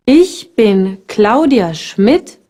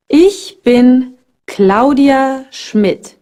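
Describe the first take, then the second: First: "ich bin Claudia Schmidt" slow, ending on a rising tune; slow model with rise. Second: "Ich bin Claudia Schmidt" said slowly, every syllable clear; slow teaching model. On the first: Teacher repeats the introduction slowly with a rising end. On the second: Teacher slowly models the introduction for beginners. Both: Shown as a demonstration. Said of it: "Ich is I".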